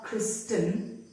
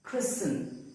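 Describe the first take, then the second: First: "Kristen" wrongly as kris-ten; T sounded. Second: "christen" as kris-un; "christen" with S running into the N; silent T. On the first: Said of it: "It is not". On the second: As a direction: drop the T from "christen". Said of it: "The T is silent". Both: Shown as a demonstration.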